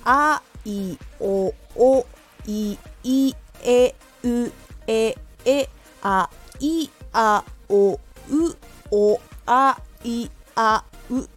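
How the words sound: Each vowel is said separately with careful breaks. "まず最初は一つずつ丁寧に言います"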